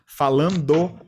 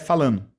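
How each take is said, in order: First: The d sound is clearly pronounced. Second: The d sound is dropped. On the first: "o nosso falando" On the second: "às vezes sai falando"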